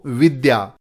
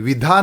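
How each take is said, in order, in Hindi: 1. बीच का व्यंजन 'd' और 'y' का मेल है। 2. बीच का व्यंजन एक महाप्राण 'dh' है। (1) "यह है द्य। द और य से बनता है।" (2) "विधा न बोलें"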